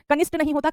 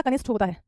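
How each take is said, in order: First: कनिष्ठ ending in unaspirated T; wrong pronunciation. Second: कनिष्ठ ending in aspirated Th; correct pronunciation. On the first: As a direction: say कनिष्ठ as "ka-nisT". (गलत उच्चारण, कनिष्ठ के अंत में ट) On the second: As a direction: say कनिष्ठ as "ka-nisTh". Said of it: "ठा". (सही उच्चारण, कनिष्ठ के अंत में ठ) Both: Shown as a demonstration.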